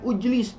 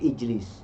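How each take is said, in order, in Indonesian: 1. Kata ini diawali dengan vokal 'u'. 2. Kata ini diawali dengan vokal 'i'. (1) "tidak boleh ujlis" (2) "tapi ijlis"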